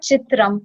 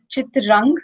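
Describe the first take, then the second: First: The word ends with an m sound. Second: The word ends with an ng sound. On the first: The speaker calls it wrong. "It's not chitram" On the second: The speaker calls it right. "it's chitrang, because the next word we have is uh, it starts with k"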